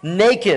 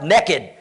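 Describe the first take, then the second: First: It is said in a neutral accent. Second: It is said in a Deep South accent.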